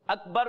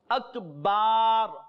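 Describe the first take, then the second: First: The vowel after the b is short. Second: The vowel after the b is long. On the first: It means great. The speaker calls it right. "Akbar means Allah is great" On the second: It means drums. The speaker calls it wrong. "includes and adds alif after Ba, the meaning will become fasid"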